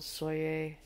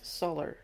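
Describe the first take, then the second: First: The name is said with a local pronunciation. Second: The name is said with an American pronunciation.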